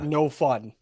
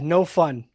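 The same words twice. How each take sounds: First: It is said quietly and flat, without inflection. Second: It is said loudly with lively inflection. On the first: The speaker calls it right. "no inflections. Just as as basic as you can" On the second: The speaker calls it wrong. "you keep your voice down"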